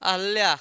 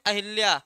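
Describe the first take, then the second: First: अहल्या said without the i, a-ha-lya; अहल्या with a plain a after ह; correct form. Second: अहिल्या said with an i after ह, a-hi-lya; अहिल्या as commonly mispronounced; wrong form. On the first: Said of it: "क्या हो जाएगा?". (सही उच्चारण: अहल्या, ह के बाद इ नहीं) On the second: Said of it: "गलत है।". (गलत उच्चारण: अहिल्या, ह के बाद इ) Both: Shown as a demonstration.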